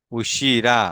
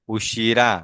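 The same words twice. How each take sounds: The two takes are said the same way.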